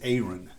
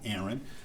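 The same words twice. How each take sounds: First: The name sounds like apron minus the P. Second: The name does not sound like apron minus P. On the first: The speaker calls it right. "it's apron with no P" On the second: The speaker calls it wrong. "my name is not Aaron"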